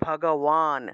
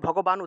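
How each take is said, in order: First: The consonant before the last syllable is w. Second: The consonant before the last syllable is b. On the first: The speaker calls it right. "এই অন্তস্থ বটাকে ওয়া রূপে উচ্চারণ করতে হয়" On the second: The speaker calls it wrong. "এটা ভগবান উচ্চারণ করলে হবে না"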